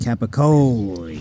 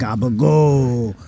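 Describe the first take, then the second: First: It starts with K and keeps the final vowel. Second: It starts with G and drops the final vowel. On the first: This is the standard way to say it. The speaker calls it right. "It's actually capicoli" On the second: This is how the speaker's family says it. The speaker calls it wrong. "it's the same with gabagool"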